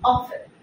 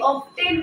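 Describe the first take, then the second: First: The t sound in the middle is silent. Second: The t sound in the middle is pronounced. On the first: The speaker calls it right. "এটা আমরা বলবো often" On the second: The speaker calls it wrong. "আমরা ভুলেও কোনোভাবেই অফটেন উচ্চারণ করব না"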